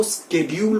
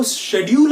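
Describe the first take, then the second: First: "शेड्यूल" said as SKED-yool; professional schedule. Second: "शेड्यूल" with sh at the start; common schedule. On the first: Teacher tells students to switch today, sk onset. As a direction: swap sh for sk in "शेड्यूल". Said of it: "आज से इसको शेड्यूल बोलिए". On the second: Teacher tells students to stop this, sh onset. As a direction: say SHED-yool for "शेड्यूल". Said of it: "तो मत बोलिए". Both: Shown as a demonstration.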